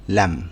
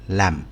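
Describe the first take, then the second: Both takes have the same delivery.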